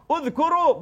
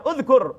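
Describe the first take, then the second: First: Uzkuru with the final u clearly voiced; final u sounded. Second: Uzkur clipped with no final vowel; wrong form. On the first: Preacher correcting the congregation: Uzkuru ending on a high u. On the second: Preacher showing the wrong form: uzkur, no final vowel. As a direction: drop the last u: uzkur. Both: Shown as a demonstration. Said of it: "bukan uzkur".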